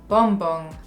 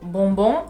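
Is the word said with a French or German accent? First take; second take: German; French. First: It is said with a German accent. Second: It is said with a French accent. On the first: "devient bonbon" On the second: "Le mot bonbon"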